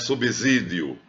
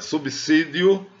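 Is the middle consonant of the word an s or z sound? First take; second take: z; s. First: The middle consonant is voiced like a z. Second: The middle consonant is voiceless like an s. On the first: The speaker calls it wrong. "nem é subsídio" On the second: The speaker calls it right. "É subsídio, porque BS, né? BSI, o S não está entre vogais"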